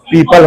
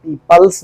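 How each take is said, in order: First: "पीपल" with no final s; correct plural form. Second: "पीपल्स" with an added final s; wrong plural form. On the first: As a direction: end "पीपल" cleanly on the l. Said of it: "पीपल होगा". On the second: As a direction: end "पीपल्स" on an s sound. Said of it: "पीपल्स नहीं होगा भैया". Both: Shown as a demonstration.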